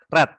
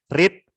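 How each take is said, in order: First: The vowel is short, sounding like 'red'. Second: The vowel is long, sounding like 'reed'. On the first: It is the past participle of the verb. "sama seperti kita membaca warna merah ya" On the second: It is the present form of the verb. "tapi bacanya berbeda"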